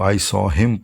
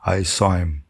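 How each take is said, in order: First: The h in him is fully pronounced. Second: The h is dropped and the words run together. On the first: "पूरा करने के बजाय" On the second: "मिला के एक word बन जाता है"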